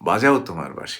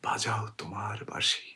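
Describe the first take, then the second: First: It is said as a direct command. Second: It is said as a wondering statement. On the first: The listener is being ordered to play. The speaker calls it wrong. "অনুজ্ঞা করেছেন যে বাজাও" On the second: Because the listener plays, the speaker hears her name. The speaker calls it right. "এই তো বলতে চেয়েছি আমরা।"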